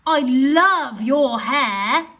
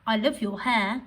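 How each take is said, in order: First: Loud, slow, drawn-out delight on love; excited gush. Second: Said in the usual way. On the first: Shown as a demonstration. Teacher reading the exclamation version of the sentence with feeling. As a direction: rave about someone's hair. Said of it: "with an exclamation mark". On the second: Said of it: "change your voice or express that sentence".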